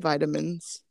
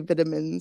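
First: It is said the American way. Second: It is said the British way. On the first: "so I still say vitamins" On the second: "I just can't say vitamins"

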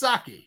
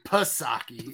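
First: The initial P is silent; it starts with S. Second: The initial P is sounded before the S. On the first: The speaker calls it right. "You don't pronounce the P. It's just Psaki" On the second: The speaker calls it wrong. "you don't say Psaki"

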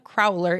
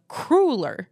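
First: The word does not rhyme with ruler. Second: The word rhymes with ruler. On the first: The speaker calls it wrong. "It's not a crowler" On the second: The speaker calls it right. "it's a cruller"

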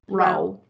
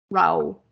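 The two takes are said the same way.

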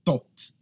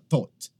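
First: It starts with a hard t sound. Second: The same.

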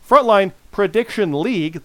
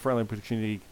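First: The phrase is said slowly and carefully. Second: The phrase is said quickly. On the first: The speaker calls it right. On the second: The speaker calls it wrong.

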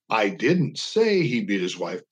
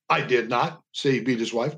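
First: The stress is on the word say. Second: The stress is on the word not.

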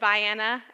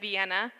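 First: It uses the local pronunciation of the name. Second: It uses the usual pronunciation of the name. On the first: This is how people here say it. The speaker calls it right. "I had to learn that it's Vienna" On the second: This is how the speaker expected it to be said. The speaker calls it wrong. "instead of Vienna"

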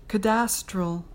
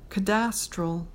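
Both takes have the same delivery.

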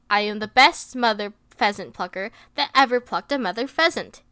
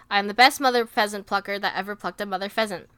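First: It is said slowly. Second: It is said fast.

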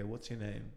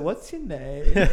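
First: It is asked in a blunt, interrogating tone. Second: It is asked in a softer, friendly tone. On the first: The listener feels questioned like a suspect. The speaker calls it wrong. "I just feel like I'm being interrogated" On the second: The listener feels invited to talk. The speaker calls it right. "I'll change the tone"

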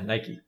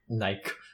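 First: Nike is said the usual American way. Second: Nike is said the British way.

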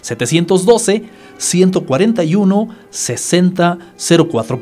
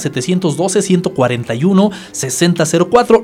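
First: It is said slowly. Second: It is said at a normal pace.

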